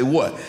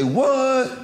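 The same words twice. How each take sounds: First: Said in the usual way. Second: High-pitched, mock-astonished "What?"; incredulous pastor. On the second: Pastor's disbelief on hearing eagle.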